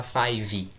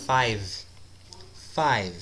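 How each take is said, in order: First: "five" with an extra ee after the V, fai-vee; "five" mispronounced as two syllables, fai-vee; added final vowel. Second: "Five" as one syllable closing on V; "Five" falling, cut off at the V; stop on V. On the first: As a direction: tack a Brazilian i onto the end of "five". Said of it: "Não fala five". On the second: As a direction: end "Five" on the consonant, no vowel after. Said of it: "parou no V". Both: Shown as a demonstration.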